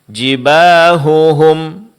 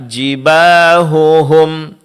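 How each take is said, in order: No difference in how they are said.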